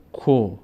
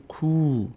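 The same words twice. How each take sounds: First: کو with short o, "ko"; short vowel. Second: کو held as long "kuu"; long vowel. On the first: Teacher says kaf on its own, short "ko". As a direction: keep کو to a rounded short "ko". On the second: Teacher adds vav to kaf, long "kuu". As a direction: draw out the oo in کو. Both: Shown as a demonstration.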